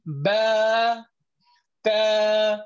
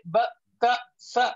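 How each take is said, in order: First: Ba and ta drawn out slowly; long letters. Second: Ba, ta, sa clipped short; quick short ba ta sa; short letters. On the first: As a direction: hold ba and ta longer. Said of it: "longer period of time". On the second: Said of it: "we don't elongate it". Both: Shown as a demonstration.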